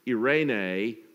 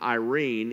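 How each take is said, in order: First: It is said with the Greek pronunciation. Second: It is said with the English pronunciation. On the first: "is based on a Greek word" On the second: "that English name"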